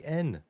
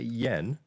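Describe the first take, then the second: First: The word begins with a plain vowel. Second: The word begins with a 'y' sound. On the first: The speaker calls it right. "you say N. The Japanese people do" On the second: The speaker calls it wrong. "you don't say yen"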